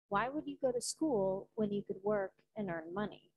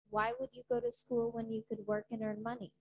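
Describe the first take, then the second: First: It is said with pauses between phrases. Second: It is said without pauses between phrases.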